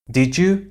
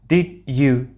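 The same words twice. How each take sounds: First: The d and y merge into a j sound. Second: The d and y sounds stay separate. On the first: "In fluent speech ... would be said" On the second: "sequences like did you"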